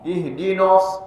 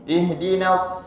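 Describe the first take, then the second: First: The n syllable sounds thick, like "no". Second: The n syllable sounds thin, like "na". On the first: The speaker calls it wrong. "Jangan sampai kita tebalkan" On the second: The speaker calls it right. "Tetap jaga ketipisan huruf na"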